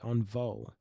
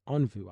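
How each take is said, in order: First: The name ends with an 'oh' sound. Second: The name ends with an 'oo' sound. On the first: The speaker calls it right. "I was told I should say Onvo" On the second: The speaker calls it wrong. "I've been told I shouldn't say Onvu"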